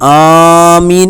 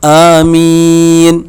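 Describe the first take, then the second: First: The opening vowel is stretched too long. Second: The opening vowel is held only briefly. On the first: The speaker calls it wrong. "ആമീൻ എന്നല്ല പറയേണ്ടത്" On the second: The speaker calls it right. "ആ എന്നത് ഒരു അലിഫേ നീട്ടാൻ പാടുള്ളൂ. മീം നമുക്ക് നീട്ടാം"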